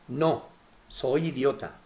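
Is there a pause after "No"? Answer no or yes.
yes. There is a pause after no.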